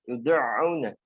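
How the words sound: The ain sound is heavily pressed and forced. The speaker calls it wrong. "enggak terlalu ditekan"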